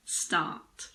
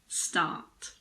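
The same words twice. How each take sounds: First: It is said in a British accent. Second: It is said in a British accent.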